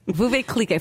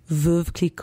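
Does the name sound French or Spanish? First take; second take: Spanish; French. First: The name is said with a Spanish-sounding pronunciation. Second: The name is said with a French-sounding pronunciation. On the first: The speaker calls it wrong. "that sounds Spanish, not French" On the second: The speaker calls it right. "Let me do it for you"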